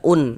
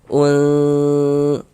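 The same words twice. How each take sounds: First: The n sound is pronounced fully and clearly. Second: The n sound is muffled and hidden. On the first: The speaker calls it wrong. "jangan jangan jangan kita baca un" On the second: The speaker calls it right. "tapi kita samarkan gitu"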